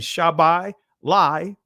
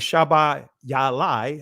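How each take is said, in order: First: The word is said with fewer syllables. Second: Every letter is sounded as its own syllable.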